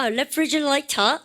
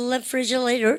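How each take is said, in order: First: "refrigerator" slowly, the t clearly released; fully articulated T. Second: "refrigerator" softer, t flapped into an r sound; American pronunciation. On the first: Teacher recapping the word for fridge, fully articulated. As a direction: keep a hard t in "refrigerator". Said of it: "다 나오게 돼 있어요". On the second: Teacher contrasting the really American version, flapped pronunciation. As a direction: link "refrigerator" loosely with an r-like t. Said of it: "this is really American이고요". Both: Shown as a demonstration.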